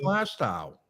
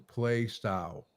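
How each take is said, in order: First: The name is said the way locals say it. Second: The name is sounded out literally, as written. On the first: This is how the place is really called. The speaker calls it right. "It's fucking play style" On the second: This is how the navigation voice said it. The speaker calls it wrong. "It's not play style"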